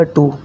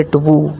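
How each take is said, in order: First: टू with a silent w, just too; टू said as too, the correct way. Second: टू with the w spoken, like twoo, the wrong way; टू sounding the w, the incorrect way; wrong w sounded. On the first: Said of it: "ये बनेगा टू". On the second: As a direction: say टू with a w glide, as the mistake. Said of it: "ना कि टू". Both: Shown as a demonstration.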